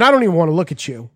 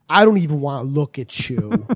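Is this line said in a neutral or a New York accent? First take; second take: New York; neutral. First: It is said in a strong New York accent. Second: It is said without a New York accent. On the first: "mid-Staten Island voice" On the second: "what happened to your accent?"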